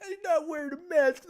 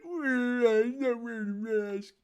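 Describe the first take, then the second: First: Higher squeaky whine of the quote; mock her outrage, pitched up; high mock Karen whine. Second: Slow, drawn-out whine; slower mock Karen whine. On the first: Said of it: "He's like". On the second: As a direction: stretch the quote out mockingly.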